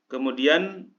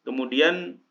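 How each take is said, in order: Both takes have the same delivery.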